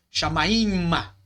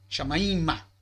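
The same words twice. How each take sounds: First: Chamaima said slowly, syllable by syllable, stress on the final ma; slow demo. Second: Said in the usual way. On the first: Shown as a demonstration. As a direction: spell out chamaima slowly, each syllable clear. (chamaima pronunciado devagar, sílaba por sílaba) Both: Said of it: "de direção".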